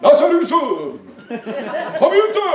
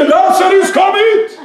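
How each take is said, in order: First: Slow, high sing-song imitation; hammed-up mild summons, stretched out; mock-gentle coaxing. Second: Loud, high preacher's cry of command; big ringing summons; commanding shout. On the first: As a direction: draw the words out in a coaxing mock call. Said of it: "Han kunne jo sagt". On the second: Retold or imitated. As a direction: call it out hard, as if to wake the dead. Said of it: "Han ropte".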